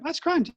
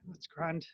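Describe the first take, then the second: First: It is said in a cheerful, pleased tone. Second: It is said in a flat, fed-up tone. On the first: Everything is going great. "that means everything's great" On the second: The day is going terribly. "it means it's a shocking day for you"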